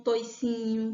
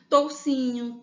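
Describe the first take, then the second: First: "toicinho" said toy-sinho, with an oi glide; "toicinho" with oi, not ou. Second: "Toucinho" said tow-sinho, with an ou glide; "Toucinho" with ou, not oi. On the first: Teacher giving the other variant: "toicinho" with oi. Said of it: "tem gente que prefere toicinho". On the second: Teacher giving her preferred form: "Toucinho" with ou. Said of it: "eu prefiro toucinho". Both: Shown as a demonstration.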